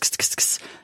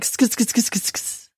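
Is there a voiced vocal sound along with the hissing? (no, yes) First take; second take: no; yes. First: The hissing sound is made with no voice. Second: The hissing sound has a voiced huh added. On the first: The speaker calls it wrong. "It's not just" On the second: The speaker calls it right. "there's a vocalization that goes along with it. It's more like"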